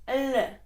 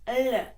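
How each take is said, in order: The two takes are said the same way.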